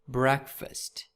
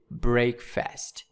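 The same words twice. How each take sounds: First: It is said as one word with reduced vowels. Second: It is said like two separate full words. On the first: The speaker calls it right. "But in these words we pronounce like breakfast" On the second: The speaker calls it wrong. "we don't say breakfast"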